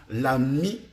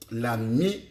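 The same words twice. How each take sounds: The two takes are said the same way.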